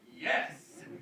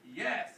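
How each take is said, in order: First: It is said in an enthusiastic, excited way. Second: It is said in a flat, unexcited way.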